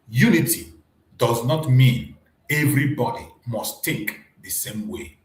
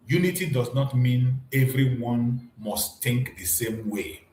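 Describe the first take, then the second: First: It is said slowly and deliberately. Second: It is said at normal speed.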